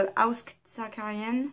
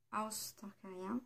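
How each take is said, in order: First: Said in the usual way. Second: House Targaryen, lent et bien plus doux, façon anglaise; essai d'accent anglais. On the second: Shown as a demonstration. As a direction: appliquer l'accent anglais sur House Targaryen. (« House Targaryen » avec un accent anglais appliqué, doux et lent) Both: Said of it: "faut pas regarder mon accent".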